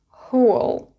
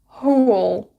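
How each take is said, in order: Both takes have the same delivery.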